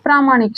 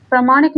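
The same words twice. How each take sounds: First: "प्रामाणिक" with a long first aa, as praa-; long "praa" opening in "प्रामाणिक"; correct long vowel. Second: "प्रामाणिक" with a short first a, as pra-; short "pra" opening in "प्रामाणिक"; wrong short vowel. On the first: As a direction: say "प्रामाणिक" as PRAA-maa-nik. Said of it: "क्या होता है?". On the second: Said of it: "प्रामाणिक नहीं होता है". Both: Shown as a demonstration.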